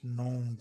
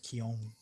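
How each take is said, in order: First: The K is silent, like 'known'. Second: The K is pronounced at the start. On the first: The speaker calls it wrong. "everybody says known ... The K is silent" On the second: The speaker calls it right. "but it's Keon"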